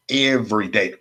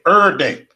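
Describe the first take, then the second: First: Said in the usual way. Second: "Er day", EVERY squashed into one punched ER; higher punch on "Er", the middle of every dropped; slurred slang form. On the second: Real, not acted. Streamer insisting it's Mother's Day, "Er day" run together as slang.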